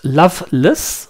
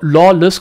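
First: The name sounds like the word loveless. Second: The name sounds like the word lawless. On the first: The speaker calls it right. "der Gründer selber bezeichnet die Uhr als Loveless" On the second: The speaker calls it wrong. "Ich habe immer gedanklich die Uhr Lawless gelesen"

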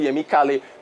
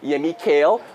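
First: The name is said with a Nigerian pronunciation. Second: The name is said with an American pronunciation. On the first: "as opposed to" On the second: "it's Google, so it's American. So they pronounce his name as"

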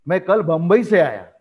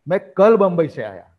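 First: The stress is on Bombay. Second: The stress is on कल.

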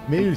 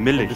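First: The word is said as a single syllable. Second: The word has an added vowel, making two syllables.

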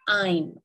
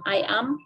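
First: It is said as one contracted syllable. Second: It is said as two separate syllables. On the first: "you can use contractions" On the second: "the pronunciation"

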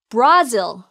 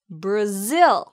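First: The stress is on the first syllable. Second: The stress is on the second syllable. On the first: The speaker calls it wrong. "Brazil 아니에요" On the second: The speaker calls it right. "zill을 강하게"

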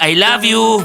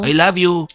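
First: It is said in a loud, shouting voice. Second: It is said in a quiet, soft voice. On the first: "Eh bakit sinisigawan mo ko?" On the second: "Eh bakit ang hina ng boses mo?"

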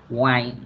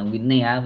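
First: The word is said with its usual English pronunciation. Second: The word is read with Vietnamese-style spelling sounds. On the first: "bình thường nó đọc là ngoài" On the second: "Mình đọc tiếng Việt cho bạn là Winne"

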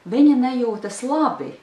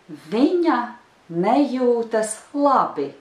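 First: It is said at normal native speed. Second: It is said slowly.

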